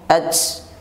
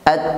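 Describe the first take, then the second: First: The final t has a whistling hiss. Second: The final t has only a breath release. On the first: The speaker calls it wrong. "Jangan sampai dibaca dengan disertai bunyi siulan" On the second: The speaker calls it right. "ta hanya diucapkan dengan nafas yang menyertai keluar"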